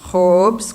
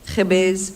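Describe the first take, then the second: First: It is said the Baalbeki way, one syllable. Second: It is said the Beiruti way, two syllables.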